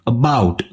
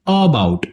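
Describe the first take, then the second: First: The first vowel is weak and unstressed. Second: The first vowel is stressed and full. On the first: "इसका श्वा sound वाला version होगा" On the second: "stressed version of श्वा sound जिसमें अ अक्षर पर हमें भार देना है"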